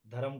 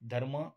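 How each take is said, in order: First: धरम with an extra vowel, dha-ram; split cluster. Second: Said in the usual way. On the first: Shown as a demonstration. Teacher showing students the spoken split form, धरम broken up. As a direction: break धर्म into धरम by adding a vowel. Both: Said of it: "धर्म तर धरम".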